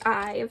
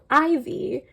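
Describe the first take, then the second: First: The name is said as one syllable, rhyming with 'dive'. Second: The name is said as two syllables, 'ivy'. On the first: The speaker calls it right. "I know now that it's Ive" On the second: The speaker calls it wrong. "I guess I'm the only person who saw their logo and was immediately like, oh, Ivy"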